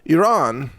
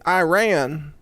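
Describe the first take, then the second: First: Iran is said without an American accent. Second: Iran is said in an American accent.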